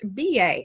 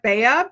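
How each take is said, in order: First: It is said as two separate letters. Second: It is said as one single word. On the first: The speaker calls it right. "but it is pronounced B A" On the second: The speaker calls it wrong. "it looks like Bea"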